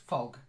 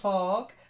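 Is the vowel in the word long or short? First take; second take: short; long. First: The vowel is kept short. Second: The vowel is drawn out long. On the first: The speaker calls it right. "Shorter, just fog" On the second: The speaker calls it wrong. "not fog"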